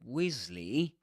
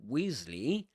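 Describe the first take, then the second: No difference in how they are said.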